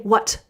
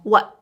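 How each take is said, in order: First: The final T is clearly released. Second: The final T is swallowed, not released. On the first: The speaker calls it wrong. "We don't need to say what" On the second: The speaker calls it right. "We kind of swallow that sound"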